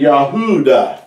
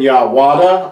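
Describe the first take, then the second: First: The middle sound is an oo vowel. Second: The middle sound is a w consonant. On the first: The speaker calls it right. "but it's been Yahuda" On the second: The speaker calls it wrong. "It's never been Yahwada"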